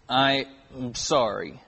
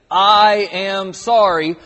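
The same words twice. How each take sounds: First: Put-on low, soft, reluctant kid's sorry; half-hearted apology. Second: "I am sorry" slow and loud, each word given full weight; every word separately stressed. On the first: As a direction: mumble a token apology, imitating a told-off child. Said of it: "And so we would go". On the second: Retold or imitated. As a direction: spell out "I", "am", "sorry" as three firm, drawn-out words. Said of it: "say every single word of that".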